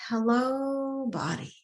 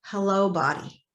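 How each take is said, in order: First: Gentle greeting. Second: Said in the usual way. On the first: Shown as a demonstration. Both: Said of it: "really to start with".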